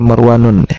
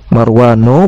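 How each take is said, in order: First: The word ends with an added n sound. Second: The word ends in a plain vowel. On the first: The speaker calls it wrong. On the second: The speaker calls it right. "dibaca tanpa tanwin"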